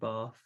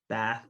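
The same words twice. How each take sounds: First: It is said with a British accent. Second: It is said with an American accent.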